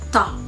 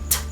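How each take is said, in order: First: An extra uh vowel follows the consonant. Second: The consonant is a short stop with no vowel. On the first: The speaker calls it wrong. "and not ta" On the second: The speaker calls it right. "it's T"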